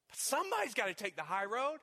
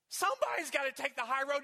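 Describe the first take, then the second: First: Said in the usual way. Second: Higher, louder repeat that drives it home. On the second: Acted. Preacher repeating the call to the congregation, louder and higher. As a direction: hammer it home the second time. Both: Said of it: "repeated louder".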